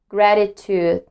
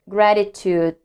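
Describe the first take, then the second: The two takes are said the same way.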